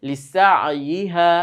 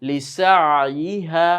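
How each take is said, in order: No difference in how they are said.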